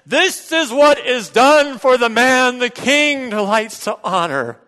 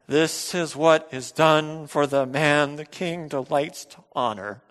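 First: It is said loudly with more passion. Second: It is said plainly at normal volume.

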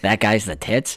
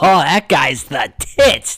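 First: It is said flat, in a monotone. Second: It is said lively, with a hard first T. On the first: The speaker calls it wrong. "if you're just monotone" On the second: The speaker calls it right. "if you hit him like, oh, ... a hard pop of that first T"

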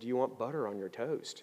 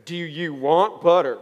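First: It is asked in a neutral tone. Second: It is asked with an annoyed tone.

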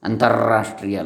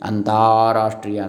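First: The vowel after the t is short. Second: The vowel after the t is long. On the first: The speaker calls it wrong. "ಅಲ್ಲ" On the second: The speaker calls it right. "ಅಂತಾರಾಷ್ಟ್ರೀಯ ಆಗ್ತದೆ"

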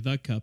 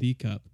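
First: The word 'the' is said with a short 'thuh'. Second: The word 'the' is said with a long 'thee'. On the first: The speaker calls it right. "I would say the cup" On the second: The speaker calls it wrong. "not the cup"

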